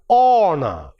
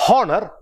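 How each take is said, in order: First: The word begins with a vowel sound. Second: The word begins with an H sound. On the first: The speaker calls it right. "but honor" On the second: The speaker calls it wrong. "there is no honor"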